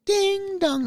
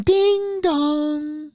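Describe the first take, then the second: First: Even higher falling ding dong; doorbell chime again. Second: Higher, sung two-note ding dong; doorbell chime. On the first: The doorbell rings a second time, high falling chime. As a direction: ring it once more, dropping down. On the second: Announcing the doorbell as Mel arrives, high sung chime. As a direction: imitate the doorbell ringing out. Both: Retold or imitated.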